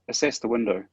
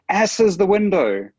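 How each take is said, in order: First: The stress falls on the second syllable of assess. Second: The stress falls on the first syllable of assess. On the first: It is a clear instruction to check the window. The speaker calls it right. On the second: It sounds like a rude word instead of an instruction. The speaker calls it wrong.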